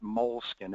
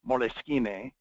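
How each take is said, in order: First: It is said like English 'mole skin'. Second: It is said with Italian sounds and endings. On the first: This is how people in this country say it. "we in this country pronounce it moleskin" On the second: This is the original Italian word. "It's actually an Italian word, moleschine"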